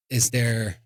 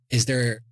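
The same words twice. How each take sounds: The two takes are said the same way.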